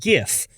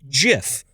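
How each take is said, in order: First: It begins with a hard G sound. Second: It begins with a soft J sound. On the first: The speaker calls it right. "rather than GIF" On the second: The speaker calls it wrong. "like the peanut butter"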